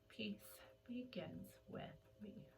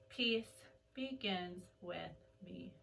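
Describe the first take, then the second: First: It is said at a quieter volume. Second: It is said at a louder volume.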